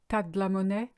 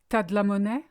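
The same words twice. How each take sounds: First: Tu and as merge into one syllable, t'as. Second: Tu and as merge into one syllable, t'as.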